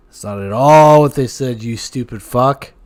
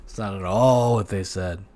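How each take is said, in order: First: Much louder repeat, mock furious; hammed-up angry punchline; loud mock outburst. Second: Said in the usual way. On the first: Repeats it louder at the other host, mock furious.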